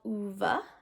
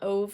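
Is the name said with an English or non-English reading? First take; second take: non-English; English. First: The name is given its non-English pronunciation. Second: The name is read as English spelling suggests. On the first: "I believe is the correct pronunciation" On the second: "how it looks like it should be spelled in the English language"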